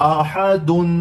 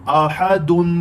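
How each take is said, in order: Both takes have the same delivery.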